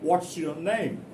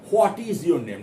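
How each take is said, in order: First: The words 'what is' are contracted together. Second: The words 'what is' are said in full. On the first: The speaker calls it right. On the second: The speaker calls it wrong. "Not what is your name"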